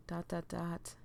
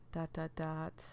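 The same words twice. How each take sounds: The two takes are said the same way.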